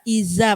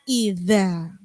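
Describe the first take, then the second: First: The middle consonant is a plain z sound. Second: The middle consonant is a voiced th sound. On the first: The speaker calls it wrong. "tapi lidahnya nggak digigit pasti bunyinya jadi iza" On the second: The speaker calls it right. "kalau digigit ujung lidahnya maka bunyinya idza"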